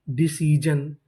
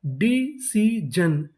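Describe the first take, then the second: First: Said in the usual way. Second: decision very slow as डी, सी, जन; syllable by syllable. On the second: Shown as a demonstration. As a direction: sound out decision with gaps between syllables. Teacher sounding out new word.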